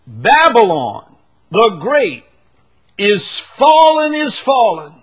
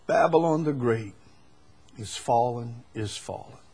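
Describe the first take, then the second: First: Loud, high, slow proclamation; angel's shout. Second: Softer and lower, fading away; quiet restatement. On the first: Acted. Preacher voicing the angel declaring Babylon's fall, full shout. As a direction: cry it out so the whole world hears. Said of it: "This is a shout". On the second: Shown as a demonstration. Preacher repeating the angel's words to the church, hushed and fading. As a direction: say it again almost to yourself. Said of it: "So this is not a whisper".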